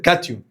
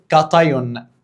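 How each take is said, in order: First: The middle vowel sounds like 'ee'. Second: The middle vowel sounds like 'eye'. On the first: "برجوله كده كاتيون" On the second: "ناس ممكن تنطقها ... بلفظ كاتايون"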